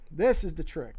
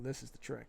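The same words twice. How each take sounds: First: "This" punched out louder with a falling tune; emphatic repeat. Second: Said in the usual way. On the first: Real, not acted. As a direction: hit "This" hard, then let "trick" fall. Says it twice, second louder.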